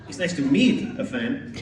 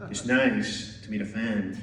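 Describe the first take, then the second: First: It sounds stuffy. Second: It sounds creepy.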